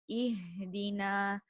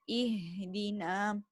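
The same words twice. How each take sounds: Both takes have the same delivery.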